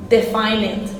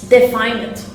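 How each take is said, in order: Both takes have the same delivery.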